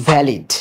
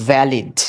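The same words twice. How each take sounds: No difference in how they are said.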